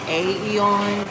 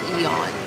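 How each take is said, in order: First: An extra 'A' sound is said before 'Eon'. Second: No extra sound is said before 'Eon'. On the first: The speaker calls it wrong. "It looks like A Eon" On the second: The speaker calls it right. "The A is silent, and it's Eon"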